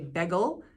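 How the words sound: It is said with a Philadelphia accent. "they say bagel"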